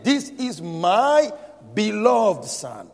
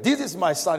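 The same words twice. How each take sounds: First: Slow, higher, "my" and "beloved" drawn out; stress on beloved. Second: Said in the usual way. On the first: Shown as a demonstration. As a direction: lean hard on "beloved", slowly. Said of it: "He said". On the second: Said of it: "God did not say that".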